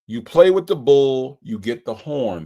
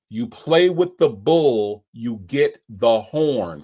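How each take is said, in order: First: It is spoken at a normal pace. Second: It is spoken slowly and deliberately.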